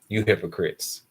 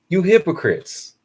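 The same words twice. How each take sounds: First: It is said plainly, without extra force. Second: It is said with strong, forceful emphasis.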